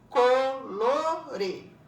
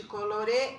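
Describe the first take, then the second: First: "Colore" loud and drawn out, Co - lo - re; split into syllables. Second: Said in the usual way. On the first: Shown as a demonstration. Teacher showing separated syllables, "Colore" split as Co - lo - re. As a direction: sound out "Colore" in three separate beats. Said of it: "ele tá separado". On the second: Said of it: "conforme a divisão silábica".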